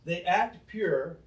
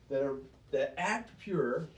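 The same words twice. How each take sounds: First: "act" drawn out slow and louder; stress on act. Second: Said in the usual way. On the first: Shown as a demonstration. Preacher repeating to brand the Pharisees, slow stress on "act". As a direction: lean on "act" to expose the pretense.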